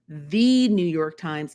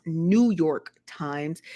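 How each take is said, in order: First: THE said as a long "thee" before New York Times; The New York Times with a stressed, stretched THE. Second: Said in the usual way. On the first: Shown as a demonstration. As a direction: lean on THE, pronounced "thee". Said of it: "Emphasis on the word the". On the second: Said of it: "not New York Times".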